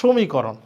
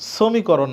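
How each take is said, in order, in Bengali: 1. শব্দটি 'sh' ধ্বনি দিয়ে শুরু হয়েছে। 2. শব্দটি 'sh' ধ্বনি ছাড়া শুরু হয়েছে। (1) "উচ্চারণ হচ্ছে তালব্যস্বর মতো" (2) "এটা সমীকরণ না"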